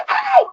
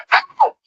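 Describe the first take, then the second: First: Sudden, much higher yelp of pain; kid's yelp. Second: Very high, sudden cry of pain; kid's scream. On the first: Pinched kid crying out in pain during the sermon. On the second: Child screaming out loud after being pinched in church. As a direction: shriek it like a child caught off guard. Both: Retold or imitated. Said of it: "just scream out loud".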